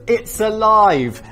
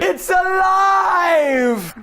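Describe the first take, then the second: First: It is read plainly with little energy. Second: It is shouted with great passion and energy. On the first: The speaker calls it wrong. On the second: The speaker calls it right.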